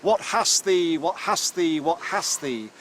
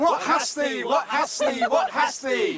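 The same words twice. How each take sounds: First: Mock rustic shout, loud then fading; demo shout. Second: Very high, loud chanting shout; ritual shout. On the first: Shown as a demonstration. Professor shows Ruth the harvest call, a loud mock shout. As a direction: call out the old harvest chant, half-demonstrating. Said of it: "we three guys shout". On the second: Pretend. Professor answers Ruth with a full-throated ritual shout. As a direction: bellow the question to the fields.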